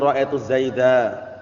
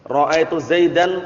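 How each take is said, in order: First: The final word ends on a vowel. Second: The final word ends with an -an sound. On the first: The speaker stops at this word. The speaker calls it right. "tapi ra'aitu zaida" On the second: The speech carries on past this word. The speaker calls it wrong.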